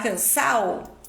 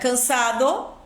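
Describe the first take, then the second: First: The d before the final vowel is dropped. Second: The d before the final vowel is pronounced.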